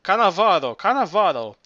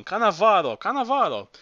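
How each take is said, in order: First: A mock parrot squawk, a bit louder. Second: Mock parrot squawk climbing higher; parrot shout. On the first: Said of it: "that parrot screaming". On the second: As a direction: screech the name like the parrot. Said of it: "he begins shouting".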